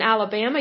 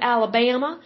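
First: Said in the usual way. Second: Lightly imitated Alabama accent. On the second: Host praising Alabama listeners, mimics their Alabama accent. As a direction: say Alabama as the locals would, stretched middle vowel. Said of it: "I love your accent".

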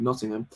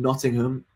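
First: Said in the usual way. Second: Nottingham said a little oddly, over-carefully spaced out. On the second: Real, not acted. Listing tour dates for listeners, Nottingham comes out a bit weird. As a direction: give Nottingham a slightly odd, deliberate delivery. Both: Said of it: "I don't know why I said that so weird".

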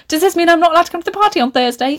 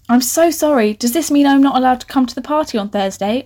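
First: High, rapid mock-earnest question; mocking imitation. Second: Mildly sheepish apology. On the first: Reader mocking her own unnatural dialogue, exaggerated imitation. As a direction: parody the stilted line, high and rushed. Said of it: "You wouldn't be like". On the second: A narrator's reading. Pupil apologising to the coach about the party, mildly sheepish. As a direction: ask it a touch timidly, rising at the end. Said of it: "I say sheepishly".

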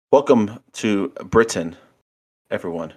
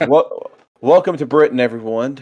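First: Put-on botched British accent with a bit of Christopher Walken; horrible British accent. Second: Put-on louder, higher second stab at a British accent; British accent retry. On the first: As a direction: attempt a British accent and miss it. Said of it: "horrible British accent". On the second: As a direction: open loudly in a makeshift British accent. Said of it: "It is a horrible British accent".

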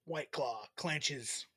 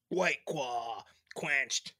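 First: White Claw clenches, with a slip on the last word; slow slogan, quenches botched as clenches; flubbed slogan. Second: Claw slips to "Kwaw" in White Claw quenched; very slow, careful White Claw quenched, tongue tripping; second attempt. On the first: Host flubs the drink slogan, slow misspoken clenches. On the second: Host retries the slogan, slow and tongue-tied. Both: Real, not acted. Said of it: "Let me try that again".

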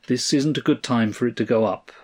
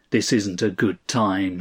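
First: Said in the usual way. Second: Understated sneering mimicry; mimicking. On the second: A narrator's reading. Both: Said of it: "he mimicked".

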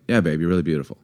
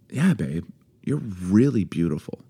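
First: Lower, uninterested praise; perfunctory, run-together compliment; offhand compliment. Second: Softer, heartfelt praise; sincere compliment. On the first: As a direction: toss the compliment off absently. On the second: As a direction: tell a partner tenderly. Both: Shown as a demonstration. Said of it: "it's just how you say it".

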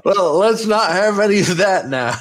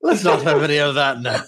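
First: Plain, not in character, laughing; plain own voice. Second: Quick attempt at an Irish accent. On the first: Acted. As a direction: says it in her own voice. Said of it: "Definitely not your character voice". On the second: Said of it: "I'm Irish, aren't I?".

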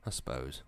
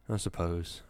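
First: Much lower and softer, defeated; a miserable, resigned echo. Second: Glum, resigned reply; miserable. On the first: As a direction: let it sink, giving up. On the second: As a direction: say it with a sigh of misery. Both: A narrator's reading. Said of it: "Wisconski said miserably".

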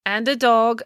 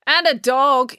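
First: Mayor conceding the addition mid-speech; higher-pitched, slot it back into the speech; amending. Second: Pointed, higher interjection over a speech; interrupting. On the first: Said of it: "amended the mayor". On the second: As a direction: cut in high and loud. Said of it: "interrupted April". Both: A narrator's reading.

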